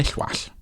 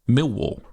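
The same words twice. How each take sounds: First: The double L is the Welsh LL sound. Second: The double L is a plain English L. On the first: The speaker calls it right. "We call them Millwall because double L's" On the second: The speaker calls it wrong. "we don't call a football club based in London Millwall in my house"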